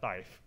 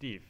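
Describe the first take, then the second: First: The vowel is long, rhyming with 'five'. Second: The vowel is short, rhyming with 'give'. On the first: The speaker calls it wrong. "not dive" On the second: The speaker calls it right. "It's div"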